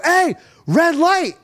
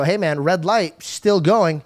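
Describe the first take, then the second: First: High, drawn-out warning yell; alarmed shout. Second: Said in the usual way. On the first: Retold or imitated. Warning a driver running a red light, high alarmed shout. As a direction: yell it slowly to jolt the driver.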